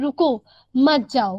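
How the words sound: The pause comes after 'रुको'.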